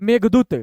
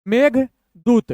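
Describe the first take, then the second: First: Said in the usual way. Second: Slow, pause between the halves; broken in two. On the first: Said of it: "दोनों को मिलाएंगे". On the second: Shown as a demonstration. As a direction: split it into two-letter chunks. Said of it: "दो दो अक्षर तोड़ तोड़ के".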